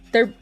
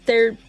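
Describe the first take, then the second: No difference in how they are said.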